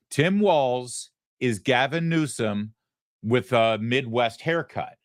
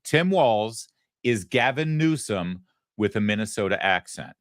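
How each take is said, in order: First: "Tim Walz is Gavin Newsom" said higher and slowly, each word stressed; slow emphatic repeat. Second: Said in the usual way. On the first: Shown as a demonstration. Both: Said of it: "learn this, memorize it, repeat it".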